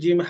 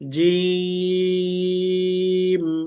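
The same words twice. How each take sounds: First: The vowel is short and not stretched. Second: The vowel is stretched for about two seconds. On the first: The speaker calls it wrong. "আমরা টানিনি।" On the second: The speaker calls it right. "কমপক্ষে দুই সেকেন্ড টানবো আমরা।"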